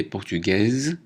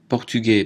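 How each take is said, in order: First: Portugaise ending in a voiced z; feminine pronunciation. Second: Portugais ending on an open è, silent s; masculine pronunciation. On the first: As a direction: sound the final z in portugaise. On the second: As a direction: say portugais without the final consonant. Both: Shown as a demonstration. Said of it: "prononciation différente".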